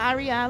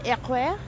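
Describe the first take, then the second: First: The letters are spoken with an English accent. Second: The letters are spoken with a French accent.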